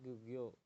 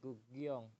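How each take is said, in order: First: The word ends without an 'ng' sound. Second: The word ends with an 'ng' sound. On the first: The speaker calls it wrong. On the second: The speaker calls it right.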